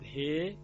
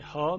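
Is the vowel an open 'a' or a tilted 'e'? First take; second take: tilted e; open a. First: The vowel is tilted toward an e sound. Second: The vowel is an open a sound. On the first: "یعنی ها میشود ه" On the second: "یعنی ها میشود ه"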